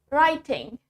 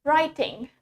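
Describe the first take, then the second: First: The middle T is pronounced clearly. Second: The same.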